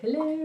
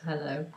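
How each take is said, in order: First: It is said in a put-on posh voice. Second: It is said in a plain everyday voice. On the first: "She used to put a posh voice on and say" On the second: "instead of just"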